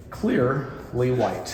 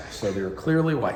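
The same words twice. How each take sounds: First: Milk the obvious point; drawn-out emphasis. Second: Said in the usual way. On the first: Shown as a demonstration. Stretches the obvious colour.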